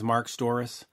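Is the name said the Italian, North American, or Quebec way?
North American. The surname is said the North American way.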